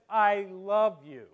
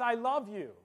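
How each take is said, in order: First: Slow and loud, LOVE held out as so-called; finger quotes on LOVE. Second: Said in the usual way. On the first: Shown as a demonstration. Spouse to partner, slow finger quotes on LOVE. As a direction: put "love" in audible quotation marks, slowly. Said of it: "or she says". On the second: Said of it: "looks lovingly into your eyes and says".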